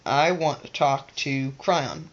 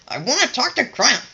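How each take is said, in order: First: It is said in an easy, gentle way. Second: It is said in a hard, punching way. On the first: The wish lets the energy flow freely. The speaker calls it right. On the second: The wish creates too much resistance. The speaker calls it wrong.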